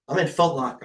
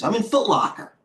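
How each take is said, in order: First: Said in the usual way. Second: "I'm in Foot Locker" pitched much higher in mock dismay; high, whiny can't-believe-it complaint; groaning that the Foot Locker trade went bad, pitched high; pitched-up disbelief. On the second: Real, not acted.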